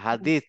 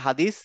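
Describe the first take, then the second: First: The final consonant is a th sound. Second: The final consonant is a plain s sound. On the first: The speaker calls it right. "হাদিস না" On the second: The speaker calls it wrong. "আমরা বলি না হাদিস"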